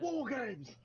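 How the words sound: It is said imitating another person's accent. The speaker calls it right. "say it like William Regal says it"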